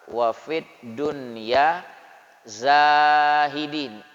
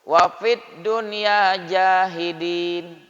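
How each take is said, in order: First: The last word begins with a z sound. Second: The last word begins with a j sound. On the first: Make us people who renounce the world. The speaker calls it right. "Zai, alif, ha, dal, ya, nun, zahidin" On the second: The meaning changes. The speaker calls it wrong. "Kalau bacanya tidak fasih"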